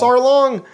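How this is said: It is said in an Australian-sounding accent. "it makes me think he has an Australian accent because he goes"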